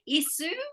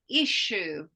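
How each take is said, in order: First: The middle consonant is a plain s sound. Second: The middle consonant is a sh sound. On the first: The speaker calls it wrong. "Is it a S or is it a sound or is it a sh? Do we say isu" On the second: The speaker calls it right. "it's an S H in this case"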